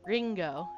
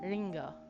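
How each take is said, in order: First: The r is said with a hard, pressed tongue. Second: The r is a light tap rolling off the tongue. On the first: The speaker calls it wrong. "we don't go Ringo" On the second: The speaker calls it right. "It's Ringo"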